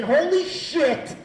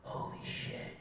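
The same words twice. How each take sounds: First: High, loud, drawn-out exclamation; panicked outburst. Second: Whispered, stunned amazement; awed hush. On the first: Comic facing the stage before his set, loud panicked exclamation. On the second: Comic walks off after one great night, hushed awe. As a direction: breathe it out in quiet wonder. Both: Acted.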